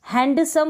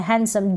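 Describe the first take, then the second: First: हैंडसम with a clear d; wrong pronunciation. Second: हैंडसम said as hensam, no d; silent d. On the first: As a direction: sound the d in हैंडसम. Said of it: "बोलते हैं तो गलत हो जाता". (हैंडसम में डी बोलकर) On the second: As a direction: drop the d in हैंडसम. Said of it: "डी यहाँ पर साइलेंट रहता है". (हैंडसम, डी silent) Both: Shown as a demonstration.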